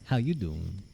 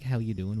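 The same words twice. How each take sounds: First: It is said in a put-on sixties greaser voice. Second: It is said in his usual normal voice.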